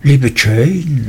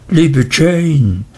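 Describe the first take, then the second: First: A hint of a dismayed stammer on Liebe Jane; mild nervous stammer on Liebe Jane, falling at the end. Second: A startled cry of Liebe Jane, slightly raised; mildly startled Liebe Jane, falling at the end; startled outburst. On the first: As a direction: falter over Liebe Jane, caught off guard. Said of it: "stammelte meine Mutter bestürzt". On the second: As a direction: jump in alarm on Liebe Jane, leaning on liebe. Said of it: "fuhr meine Mutter auf". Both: A narrator's reading.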